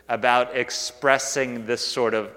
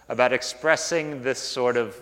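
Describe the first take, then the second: No difference in how they are said.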